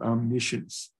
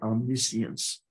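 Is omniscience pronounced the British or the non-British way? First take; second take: non-British; British. First: The word is pronounced in a non-British way. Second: The word is pronounced in a British way. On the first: "but we pronounce it omniscience" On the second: "I think British call that omniscience"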